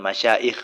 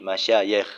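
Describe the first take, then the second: First: The middle consonant is a glottal stop. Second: The middle consonant is a y sound. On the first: The speaker calls it wrong. "bukan dengan hamzah, bukan masyaikh" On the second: The speaker calls it right. "dengan huruf ya, ... tapi masyayikh"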